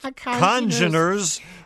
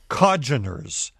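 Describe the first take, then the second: First: The first syllable has a clear N sound. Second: The first syllable has no N sound. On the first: The speaker calls it right. "The N should be pronounced congeners" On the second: The speaker calls it wrong. "you were mispronouncing the word congeners. ... it sounded like cogeners"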